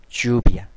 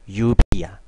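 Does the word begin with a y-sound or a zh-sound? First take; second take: zh-sound; y-sound. First: The first consonant is a zh-like sound. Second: The first consonant is a soft y-sound. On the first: "하지만 중남미에서는" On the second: "우리말에 이처럼 발음이 되지만"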